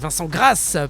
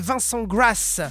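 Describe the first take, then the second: First: The surname is pronounced the French way. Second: The surname is pronounced the English way. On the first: The speaker calls it right. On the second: The speaker calls it wrong. "je sais pas pourquoi je dis Grass parce qu'en fait il est français"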